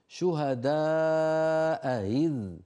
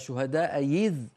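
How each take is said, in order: First: The second hamza is a soft throaty glide. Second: The second hamza becomes a y sound. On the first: The speaker calls it right. "مسهلة من هنا من الحلق من مخرج الهمزة" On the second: The speaker calls it wrong. "هذه من مخرج الياء من وسط اللسان"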